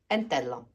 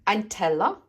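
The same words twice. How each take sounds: First: It is said with a Swiss German pronunciation. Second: It is said with a Standard German pronunciation. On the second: "Aber auf Deutsch"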